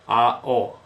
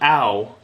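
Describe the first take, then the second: First: The two vowels are said as separate syllables. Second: The vowels glide together into one syllable. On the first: The speaker calls it right. "It's ao, a-o" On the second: The speaker calls it wrong. "it's not ow, by the way. You can't say ow"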